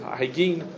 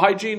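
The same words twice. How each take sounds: First: It is said with a Hebrew pronunciation. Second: It is said with an English pronunciation.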